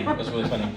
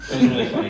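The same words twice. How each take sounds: First: Said in the usual way. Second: Laughing. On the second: Real, not acted.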